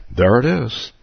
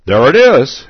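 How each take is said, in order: First: Said in the usual way. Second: Loud, high triumphant exclamation; teacher's loud joyful exclaim. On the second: Acted. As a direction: call it out like a sudden discovery. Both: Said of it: "exclaimed the teacher".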